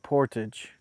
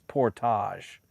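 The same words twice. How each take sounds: First: It is said in a plain, everyday way. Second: It is said in a fancy, snobby-sounding way. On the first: "everybody says portage" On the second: "he says it really like uppity and snobby like"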